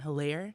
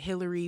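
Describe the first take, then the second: First: The name ends with an 'air' sound. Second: The name ends with an 'ee' sound. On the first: This is how the name is actually pronounced. The speaker calls it right. "it's pronounced Adam Hilaire" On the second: Others said it this way. The speaker calls it wrong. "a lot of people in local news were pronouncing it Hillary"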